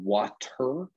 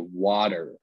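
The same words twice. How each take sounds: First: The middle t is a clear t sound. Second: The middle t sounds like a soft d. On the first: "instead of saying water" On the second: "we pronounce a lot of T's like D's"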